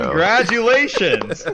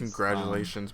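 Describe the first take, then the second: First: It is said in an excited tone. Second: It is said in a flat, unexcited tone.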